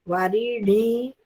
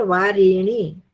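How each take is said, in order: First: वारिणी said slowly with the णी syllable drawn out long; slow वारिणी, lengthening णी. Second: वारिणी said slowly with the री syllable drawn out long; slow वारिणी, lengthening री. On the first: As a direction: stretch the end of वारिणी, the णी held. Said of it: "ण को दीर्घ करना है इसमें". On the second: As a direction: stretch the middle of वारिणी, the री held. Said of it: "उसमें र को दीर्घ करना है". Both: Shown as a demonstration.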